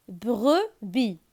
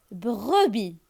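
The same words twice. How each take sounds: The two takes are said the same way.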